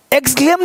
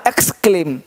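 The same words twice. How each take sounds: First: "एक्सक्लेम" with gz-gl for ks-kl; wrong pronunciation. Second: "एक्सक्लेम" with voiceless ks-kl; low, falling "एक्सक्लेम", said eks-klem; correct pronunciation. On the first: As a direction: mispronounce "एक्सक्लेम" as egz-glem. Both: Shown as a demonstration. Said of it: "एक्सक्लेम नहीं बोला है".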